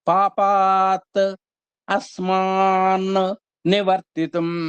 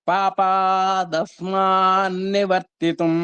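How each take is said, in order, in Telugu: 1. మొదటి రెండు పదాలు విడివిడిగా అంటారు. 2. మొదటి రెండు పదాలు కలిపి ఒకటిగా అంటారు. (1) "మూడు పదాలు అక్కడ అవగాహన చేసుకోవాలి" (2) "రెండింటిని కలిపాం"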